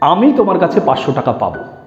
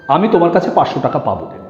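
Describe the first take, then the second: First: The stress is on আমি. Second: No word is given special stress.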